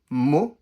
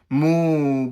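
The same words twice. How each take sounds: First: The vowel is short and quick. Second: The vowel is stretched out long. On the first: The speaker calls it right. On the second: The speaker calls it wrong. "They'll stretch the mu"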